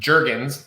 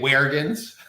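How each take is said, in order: First: The name has a plain American pronunciation. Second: The name has a Mexican Spanish pronunciation. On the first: This is how the family says it. "pronounced Jurgens, like the lotion" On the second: People in Southern California say it this way. "that's the Mexican pronunciation"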